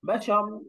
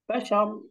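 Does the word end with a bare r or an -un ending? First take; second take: bare r; bare r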